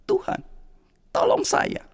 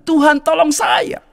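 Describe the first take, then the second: First: Breathless whispered prayer; whispered plea. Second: Slow, higher shouted plea; crying out. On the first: Flooded man praying to God, whispered plea. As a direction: whisper the cry for help. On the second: Man shouting to God from the flood, slow shout. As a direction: call out to God slowly. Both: Acted.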